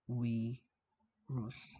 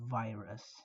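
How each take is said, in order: First: The word begins with a W sound. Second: The word begins with a V sound. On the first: "V is not pronounced as V, but W. So it's actually pronounced" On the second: "the word virus"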